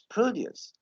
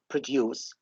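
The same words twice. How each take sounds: First: The stress is on the first syllable. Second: The stress is on the second syllable. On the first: It names farm goods. "this is the noun" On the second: It names the act of making. "this is the verb"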